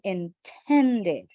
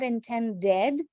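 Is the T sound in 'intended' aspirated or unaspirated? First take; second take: aspirated; unaspirated. First: The T is said with a puff of air. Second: The T is said with little breath. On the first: The speaker calls it right. "we're going to add more air for the T sound over here because it's a stressed syllable" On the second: The speaker calls it wrong. "not intended"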